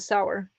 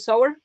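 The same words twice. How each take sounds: First: The word rhymes with 'sour'. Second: The word rhymes with 'slower'. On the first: "but that means like, you know, sour and sweet" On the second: "which also could be wrong"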